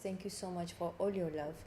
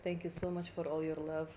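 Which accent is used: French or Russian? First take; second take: French; Russian. First: It is spoken in a French accent. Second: It is spoken in a Russian accent. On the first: "the French accent is that uh, whenever I talk like this" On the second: "That's the Russian one"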